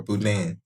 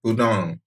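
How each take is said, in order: First: Boudin as boo-DAN, vowel as in "cat"; second variant of boudin. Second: Boudin as boo-DAHN, open nasal "ah"; Cajun variant of boudin. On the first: Giving a friend two Cajun options, boudin said boo-DAN. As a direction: end boudin on a flatter "dan". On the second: Giving a friend two Cajun options, Boudin said boo-DAHN. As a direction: end Boudin on a French-style nasal "dahn". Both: Shown as a demonstration. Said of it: "Cajuns would say boudin".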